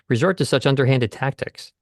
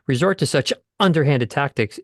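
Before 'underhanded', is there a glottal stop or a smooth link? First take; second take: smooth link; glottal stop. First: 'Such' runs smoothly into 'underhanded' without a break. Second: A glottal stop breaks the sound before 'underhanded'. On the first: The speaker calls it right. "it's really nice to say" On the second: The speaker calls it wrong. "instead of saying"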